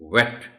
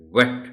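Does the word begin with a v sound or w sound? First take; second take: w sound; w sound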